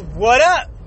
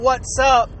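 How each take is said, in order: First: The middle word is dropped entirely. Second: The first two words are contracted together. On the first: "It's what up" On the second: "no more what's up"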